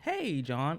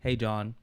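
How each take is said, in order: First: The pitch moves up and down with energy. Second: The pitch stays flat and low in energy. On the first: The speaker calls it right. "It was very, very um, enticing and engaging" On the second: The speaker calls it wrong. "I didn't say"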